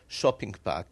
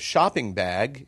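First: The word bag ends with a voiceless K sound. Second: The word bag ends with a voiced G sound. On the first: "it becomes a K" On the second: "instead of shopping bag"

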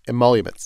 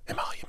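First: The word is spoken in a normal voice. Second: The word is whispered.

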